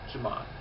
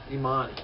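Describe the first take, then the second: First: The name begins with a J sound. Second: The name begins with a vowel sound. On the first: This is the Haitian way of saying it. "the Haitians, being French, pronounce it Jamani" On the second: This is the Spanish way of saying it. "The J is silent in Spanish"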